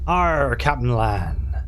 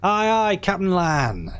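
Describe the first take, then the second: First: Slow, drawn-out pirate Arr; hammed-up pirate voice; pirate growl. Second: Rousing pirate crew cry; hearty crew shout. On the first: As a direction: growl it like an old sea dog. Pirate crew member's reply. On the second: Acted. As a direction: answer the captain with gusto. Crew answering the captain.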